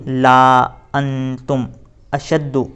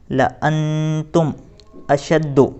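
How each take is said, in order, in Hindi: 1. पहला स्वर लंबा खींचा जाता है। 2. पहला स्वर छोटा रखा जाता है। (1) "बाज़ हज़रात ला अंतुम अशद्दु इस तरह से पढ़ते हैं, तो इस तरह से हमें बिल्कुल भी नहीं पढ़ना है" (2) "बल्कि लअन्तुम अशद्दु इस तरह से पढ़ेंगे"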